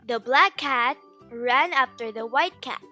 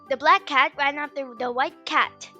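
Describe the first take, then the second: First: The sentence is said at a normal speed. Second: The sentence is said at a fast speed.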